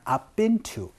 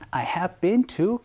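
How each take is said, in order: First: I have is quickly contracted to I've. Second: I have is said as two full words. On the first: "요거를 빨리 줄여서 그냥 I've been to 요렇게" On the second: "I have been to California 라고 얘기를 하거나"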